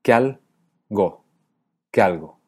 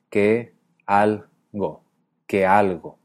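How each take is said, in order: First: QUE ALGO as QUEAL-GO, slowly split, then whole; diphthong. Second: QUE ALGO as que, al, go, then whole with E and A apart; hiatus. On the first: Teacher shows how he and Horacio say que algo, diphthonged. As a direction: run que and algo together into one first syllable. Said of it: "hacemos diptongo con la E y la A". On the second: Teacher shows Galle's que algo, in careful hiatus. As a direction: keep que and algo as separate syllables. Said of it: "mantiene un hiato". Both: Shown as a demonstration.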